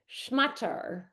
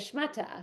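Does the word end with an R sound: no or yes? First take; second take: yes; no. First: The word ends with an added R sound. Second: The word ends in a vowel, without R. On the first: "they'll say schmatter" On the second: This is how the speaker herself says it. "when I would say schmata"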